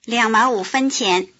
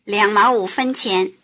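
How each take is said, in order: No difference in how they are said.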